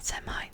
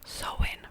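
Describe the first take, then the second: First: It is said as Sam-hane, with an m. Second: It is said as Sow-in, without an m. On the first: The speaker calls it wrong. "have I been pronouncing it wrong my entire life?" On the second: The speaker calls it right. "Pronounce so Sowin"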